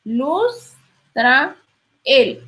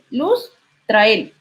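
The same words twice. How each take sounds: First: "luz trael" said slowly, vowels kept apart; "luz trael" drawn out with the vowels separated; slow split syllables. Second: "luz trael" with the vowels run together; "luz trael" merged into fewer syllables; vowels joined. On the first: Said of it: "en lugar de decir". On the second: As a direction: blend "luz trael" smoothly, a little slow. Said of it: "Entonces, luz trael". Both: Shown as a demonstration.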